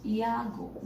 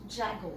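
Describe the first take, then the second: First: "Yago" opening on a y glide; pronounced Yago. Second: "Jago" begun with a hard English j; mispronounced Jago. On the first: Teacher modelling the right surname, "Yago" starting with a y sound. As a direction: say "Yago" with a y at the front. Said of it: "we will pronounce it as". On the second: Teacher showing the form to avoid, "Jago" starting with a j sound. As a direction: say "Jago" with j as in jam. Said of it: "not Jago". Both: Shown as a demonstration.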